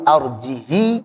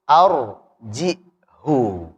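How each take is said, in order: First: The word ends with a short 'i' vowel. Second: The word ends with a short 'u' vowel. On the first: "Arjihi gitu" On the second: "Nanti riwayat lain lagi arjihu"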